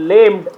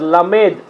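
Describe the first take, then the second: First: It is said like an English-looking word. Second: It is said as a Hebrew word. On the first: The speaker calls it wrong. "Was not லேம்ட்" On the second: The speaker calls it right. "It was லமேத், எ human sorry Hebrew word"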